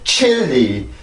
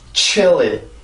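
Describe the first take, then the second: First: The voice drops off abruptly after the first syllable. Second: The voice flows smoothly from the first syllable onward. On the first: The speaker calls it wrong. "chilly 이렇게 뚝" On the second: The speaker calls it right. "항상 chilly"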